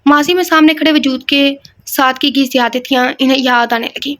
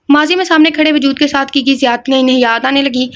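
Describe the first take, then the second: First: ماضی read as masi and زیادتیاں garbled as siatetiya; a stumbling first read with ماضی and زیادتیاں mispronounced; slipped reading. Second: ماضی said clearly with z as mazi and زیادتیاں as ziyadatiyan; a careful clean re-read with ماضی and زیادتیاں said correctly; corrected reading. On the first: Reader stumbling over the sentence, reading ماضی and زیادتیاں wrongly. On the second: Reader correcting herself, saying ماضی and زیادتیاں properly. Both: Real, not acted. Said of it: "re-reads the sentence".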